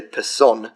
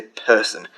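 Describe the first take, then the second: First: "person" stressed on the second syllable, perSON; misplaced stress. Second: Said in the usual way. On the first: Shown as a demonstration. Learner showing viewers how stress sounds weird, misplaced stress on "person". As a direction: shift the weight onto the end of "person". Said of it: "you don't say person". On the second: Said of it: "you say person".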